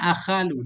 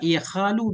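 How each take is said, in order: First: The word begins with an 'a' vowel. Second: The word begins with an 'i' vowel. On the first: This is the form the rule predicts. "dengan fathah hamzah" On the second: This is the more common form, against the rule. "bikasihnya ala khilafil qiyas"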